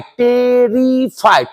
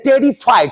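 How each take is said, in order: First: टेरिफाइड stretched slowly, each syllable marked; slow clear pronunciation. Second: Said in the usual way. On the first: Shown as a demonstration. (धीमा, साफ़ उच्चारण) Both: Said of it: "clear कीजिएगा".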